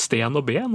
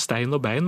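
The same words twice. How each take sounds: First: "sten og ben" with long plain e vowels; simplified diphthong. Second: "stein og bein" with ei diphthongs; diphthong form. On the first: Linguist showing Oppdal speech, long e in "sten og ben". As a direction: say "sten og ben" without any ei glide. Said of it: "forenklet diftongen". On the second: Linguist showing what Oppdal avoids, ei in "stein og bein". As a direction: say both words in "stein og bein" with a gliding ei. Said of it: "der heter det jo ikke". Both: Shown as a demonstration.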